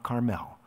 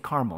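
First: Carmel is pronounced a different, non-local way. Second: Carmel is pronounced the local Indiana way. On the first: This is how outsiders say the name. The speaker calls it wrong. "not Carmel" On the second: This is how locals say the name. The speaker calls it right. "in Indiana, it's Carmel"

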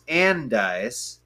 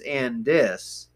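First: The second syllable sounds like ice. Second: The second syllable sounds like is. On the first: This is how most people say it today. The speaker calls it wrong. "the common pronunciation of the name is Andyce" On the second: This is how older native residents say it. The speaker calls it right. "the correct pronunciation is Andis"

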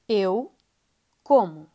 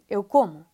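First: It is said slowly, as two separate words. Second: It is said fast, run together like one word.

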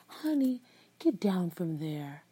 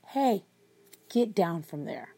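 First: It is said in a soft, gentle tone. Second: It is said in a stern, firm tone.

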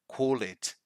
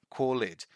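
Both takes have the same delivery.

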